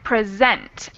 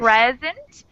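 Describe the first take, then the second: First: The stress is on the second syllable. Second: The stress is on the first syllable. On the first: "with the emphasis on the second syllable" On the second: "if you stress the first syllable"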